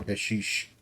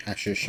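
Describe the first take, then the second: First: "hashish" with a long ee in the second syllable; alternative pronunciation. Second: Said in the usual way. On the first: Shown as a demonstration. Gamer unsure which is proper, offering "hashish" as hash-EESH. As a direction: end "hashish" on a "sheesh" sound. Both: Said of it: "I don't know if it's properly".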